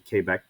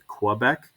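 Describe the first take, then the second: First: The name is said with a French pronunciation. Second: The name is said with an English pronunciation. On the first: "they can pronounce it Quebec because they are French" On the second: "we would pronounce it Quebec"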